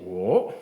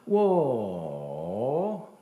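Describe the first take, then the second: First: The pitch only rises throughout. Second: The pitch falls and then rises again. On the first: It means five. "ça ne fait que monter. Oh, deuxième ton" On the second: It means I. "au troisième ton, ... ça descend et ça remonte"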